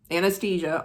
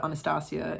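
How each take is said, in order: First: Anastasia with flat a and stressed long ay; American Anastasia. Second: Anastasia with open ah sounds, ah-nah-STAH-see-ah; Russian Anastasia. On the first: Explaining her name, the American way. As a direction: say Anastasia the American way, an-uh-STAY-zha. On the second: Explaining her name, the Russian way. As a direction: say Anastasia the Russian way, broad ah vowels. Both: Shown as a demonstration. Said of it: "In Russian, it's Anastasia".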